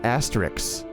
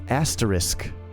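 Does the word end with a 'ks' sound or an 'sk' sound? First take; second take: ks; sk. First: The word ends with a ks sound. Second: The word ends with an sk sound. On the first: The speaker calls it wrong. "it's not Asterix" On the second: The speaker calls it right. "It's asterisk"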